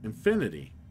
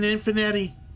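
First: The name ends with a "-nity" sound. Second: The name ends with a "-netti" sound. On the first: "He really wants us to say infinity" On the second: "He will always be a Finetti for me"

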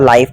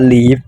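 First: The vowel sounds like 'eye'. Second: The vowel sounds like 'ee'. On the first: The speaker calls it wrong. "มันไม่ได้อ่านว่า" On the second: The speaker calls it right. "มันอ่านว่า"

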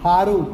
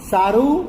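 First: The word begins with a breathy h sound. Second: The word begins with an s sound.

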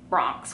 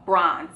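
First: The word ends with a 'ks' sound. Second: The word ends with a 'z' sound. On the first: The speaker calls it wrong. "why I say it like that?" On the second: The speaker calls it right. "No, bronze, okay?"

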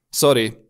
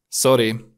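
No difference in how they are said.

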